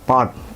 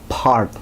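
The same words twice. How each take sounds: First: The P is said plainly, without a puff of air. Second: The P is said with a strong puff of air.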